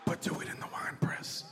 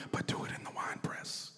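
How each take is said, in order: First: Whispered again, voiceless and hushed. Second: Whispered aside, no voice at all. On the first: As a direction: slip in the condition under your breath. Repeated whispered aside. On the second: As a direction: breathe it like a secret add-on to the prayer. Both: Retold or imitated.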